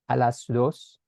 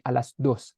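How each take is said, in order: First: The d in dos is soft. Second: The d in dos is hard. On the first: This is how Spanish speakers say it. "we don't really say a las dos" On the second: This is how Tagalog speakers say it. "use the hard D like"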